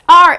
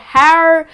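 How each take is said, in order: First: The word begins directly with a vowel sound. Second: The word begins with an audible H sound. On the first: The speaker calls it right. "It's just R" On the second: The speaker calls it wrong. "It's not hour or har"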